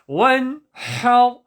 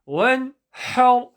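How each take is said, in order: No difference in how they are said.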